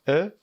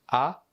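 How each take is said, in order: First: The vowel is closed, with the mouth narrower. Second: The vowel is open, with the mouth wide. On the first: "Une prononciation plus fermée" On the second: "Une prononciation plus ouverte"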